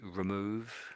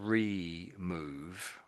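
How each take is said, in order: First: The word is said at a normal pace. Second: The word is drawn out slowly. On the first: "most people say remove" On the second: "you said it slightly slowly"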